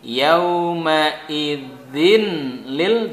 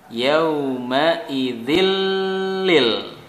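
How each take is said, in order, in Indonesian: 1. Bunyi n terdengar jelas. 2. Bunyi n menyatu dengan l.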